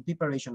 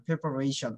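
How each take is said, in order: First: "প্রিপারেশন" said as "pi-pa-re-shon"; mistaken pronunciation. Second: "প্রিপারেশন" said as "pe-pa-re-shon"; correct pronunciation. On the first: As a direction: show the wrong "প্রিপারেশন", with "pi" at the start. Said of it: "প্রিপারেশন না". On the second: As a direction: model "প্রিপারেশন" with an "e" in the first syllable. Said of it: "প্রিপারেশন হবে". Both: Shown as a demonstration.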